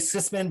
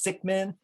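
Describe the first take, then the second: First: The name is said with an s in the middle. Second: The name is said with a k in the middle. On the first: The speaker calls it wrong. "Some people say Sisman" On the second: The speaker calls it right. "properly pronounce it. It's Sickman"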